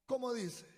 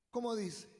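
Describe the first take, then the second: No difference in how they are said.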